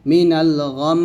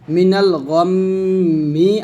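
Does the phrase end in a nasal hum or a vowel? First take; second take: nasal hum; vowel. First: The phrase ends on a held nasal m. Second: The phrase ends with a final mi syllable. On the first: "ওয়াকফ ধরলে হবে মিনাল গম, এরকম" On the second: "মিনাল গম মি আছে"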